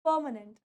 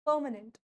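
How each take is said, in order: No difference in how they are said.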